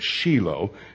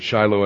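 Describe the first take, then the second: First: The name is said with an Israeli pronunciation. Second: The name is said with an English pronunciation. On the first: This is how locals say it. The speaker calls it right. "it's Shiloh" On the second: This is not how locals say it. The speaker calls it wrong. "They don't pronounce it Shiloh in Israel"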